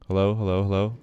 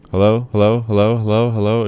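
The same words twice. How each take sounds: First: Said in the usual way. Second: Much louder, pushing the meter; loud mic test. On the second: Shown as a demonstration. Streamer testing whether his loud voice clips, loud. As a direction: belt each hello into the mic. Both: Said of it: "It goes up to the red if I go down".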